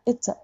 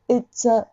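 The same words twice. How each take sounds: First: Katakana-style it's a; the wrong flat it's a; カタカナ. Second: It's a dropped in the throat. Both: Shown as a demonstration. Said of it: "it's aじゃなくて".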